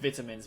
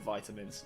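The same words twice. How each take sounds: First: It is said in a non-American accent. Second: It is said in an American accent. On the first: "we pronounce it vitamins" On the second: "in an American accent I'd go vitamins"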